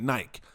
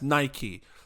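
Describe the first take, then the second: First: It is said the British way, rhyming with bike. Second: It is said the American way, ending in 'ee'.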